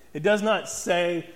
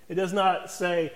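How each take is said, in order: Both takes have the same delivery.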